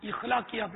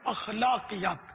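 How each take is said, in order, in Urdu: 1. یہ لفظ 'i' سُر سے شروع ہوتا ہے۔ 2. یہ لفظ 'a' سُر سے شروع ہوتا ہے۔ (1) "اخلاقیات نہیں" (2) "الف پر زبر ہے اخلاقیات"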